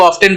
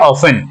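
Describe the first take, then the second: First: The t sound is clearly pronounced. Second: The t sound is left out. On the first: This is how it was said long ago. "उस जमाने में ये इसको ऑफ्टन बोलते होंगे" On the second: This is the modern pronunciation. "आज इसको क्या बोलते हैं"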